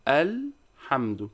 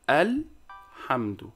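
The two takes are said the same way.

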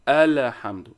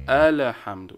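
Both takes have the same delivery.

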